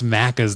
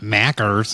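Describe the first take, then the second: First: It is said with an Australian accent. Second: It is said with an American accent. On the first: The speaker calls it right. "it's Macca's" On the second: The speaker calls it wrong. "not Mackers"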